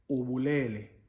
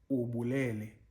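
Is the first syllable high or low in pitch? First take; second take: low; low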